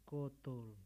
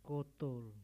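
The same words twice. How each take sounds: Both takes have the same delivery.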